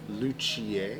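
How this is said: The word is said with a French pronunciation. "French is luthier"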